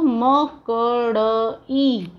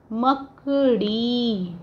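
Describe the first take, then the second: First: मकड़ई broken into म, क, ड़, ई, very slow; spelled out sound by sound. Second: मकड़ी joined as one slow word; blended whole word. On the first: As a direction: stretch each separate sound of मकड़ई. (मकड़ई को म-क-ड़-ई, अलग-अलग बोलकर) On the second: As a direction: say मकड़ी whole, drawing out the final ई. (मकड़ी पूरा शब्द जोड़कर, धीरे) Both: Shown as a demonstration. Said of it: "फिर बड़ी ई की मात्रा".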